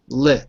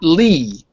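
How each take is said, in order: First: The syllable has a short i vowel. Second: The syllable has a long ee vowel. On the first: The speaker calls it right. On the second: The speaker calls it wrong.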